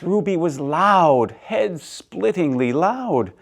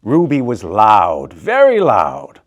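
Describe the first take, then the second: First: Said in the usual way. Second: Slow, loud, emphatic telling; loud narration. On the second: A narrator's reading. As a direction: lean on the loudness, slowly. Narrator stressing Ruby's loudness.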